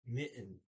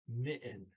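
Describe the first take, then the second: First: The middle consonant is left silent. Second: The same.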